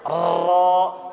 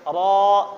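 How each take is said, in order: First: The r is trilled many times. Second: The r is trilled only about three times. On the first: The speaker calls it wrong. "Tidak boleh banyak-banyak. Ra. Nah, itu salah" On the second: The speaker calls it right. "cukup tiga kali ada, sedikit saja"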